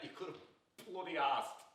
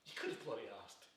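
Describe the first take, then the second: First: Slow, drawn-out stress on "bloody asked"; emphatic reproach. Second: Low, soft, wounded reproach; quiet reproach. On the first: Man pressing reproach on his friend, emphatic and slow. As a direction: lean slowly and hard on "bloody asked". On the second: Man to friend who never asked him, quietly reproachful. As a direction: say it low and hurt, falling away. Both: Acted.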